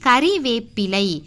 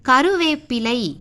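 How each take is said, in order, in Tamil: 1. இரண்டாவது எழுத்துல 'i' உயிர் இருக்கு. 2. இரண்டாவது எழுத்துல 'u' உயிர் இருக்கு. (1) "ரீ தான் வரணும்" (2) "கருவேப்பிலை கிடையாது"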